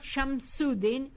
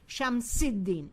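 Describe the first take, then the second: First: The middle vowel is an 'oo' sound. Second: The middle vowel is an 'ee' sound. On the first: The speaker calls it wrong. "It's not Shamsuddin" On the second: The speaker calls it right. "it's Shamsiddin"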